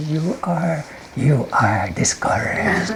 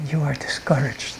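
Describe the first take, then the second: First: Hammed-up imp whisper. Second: Whispered suggestion. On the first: Imp whispering a third time, playfully drawn out. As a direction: draw it out spookily into the ear. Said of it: "I whispered". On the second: Acted. Imp whispering a second time to the person, softly. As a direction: whisper it into the ear. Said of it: "I whispered it".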